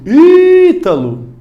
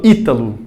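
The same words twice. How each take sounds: First: "Ítalo" called loud and high, first Í held very long; stretched-out shout. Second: Said in the usual way. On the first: Shown as a demonstration. Teacher calls to a friend as a demo, long shouted Í in "Ítalo". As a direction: holler the name, dragging out the stressed Í. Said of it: "vai estender o grito". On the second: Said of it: "um amigo meu chamado Ítalo".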